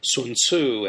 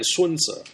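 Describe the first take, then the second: First: The last syllable sounds like 'tsoo'. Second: The last syllable sounds like 'dzuh'. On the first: This is the name as read from the older romanization. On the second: This is the name in the standard modern romanization.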